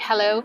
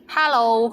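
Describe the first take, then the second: First: It is said with an English accent. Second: It is said with a Cantonese accent.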